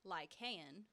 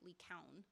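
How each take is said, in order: First: The name is said with an English pronunciation. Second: The name is said with a Greek pronunciation. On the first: The speaker calls it wrong. "So in English, you might read it as Lycan" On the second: The speaker calls it right. "Or in Greek, it's more accurately Lycaon"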